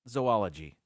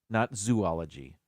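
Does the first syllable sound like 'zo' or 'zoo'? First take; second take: zo; zoo. First: The first syllable sounds like 'zo'. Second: The first syllable sounds like 'zoo'. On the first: The speaker calls it right. "The first two letters is not zoo, it's zo" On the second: The speaker calls it wrong. "It would be zoology if you were to pronounce it zoo"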